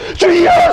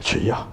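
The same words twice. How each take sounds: First: It is cried out loudly. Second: It is said quietly and restrained.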